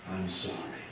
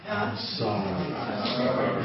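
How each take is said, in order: First: It is said at normal, softer volume. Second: It is said louder.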